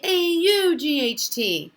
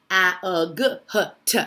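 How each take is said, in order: First: Said in the usual way. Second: "A, U, G, H, T" as separate letter sounds, a-uh-guh-huh-tuh; silly sounding-out. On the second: Shown as a demonstration. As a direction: say each of "A, U, G, H, T" as a short, punchy sound, not its name. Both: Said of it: "It's not gonna say".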